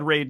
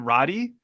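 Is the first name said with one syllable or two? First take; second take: one; two. First: The name is said as one syllable, like raid. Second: The name is said as two syllables, like roddy. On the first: "I always said Raid too" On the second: "but in this they said Roddy"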